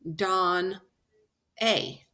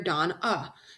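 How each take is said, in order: First: The final vowel is a short A sound. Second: The final vowel is a relaxed schwa sound. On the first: The speaker calls it wrong. "I don't hear Don A" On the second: The speaker calls it right. "So this is that special schwa sound"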